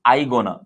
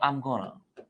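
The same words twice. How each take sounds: First: I gonna, no m after I; teacher shows the learners' mistake; wrong form. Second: I'm gonna with a clear m sound; teacher models the right I'm gonna; correct form. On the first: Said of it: "ना कि". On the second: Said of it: "एम इस तरह लगाओ". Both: Shown as a demonstration.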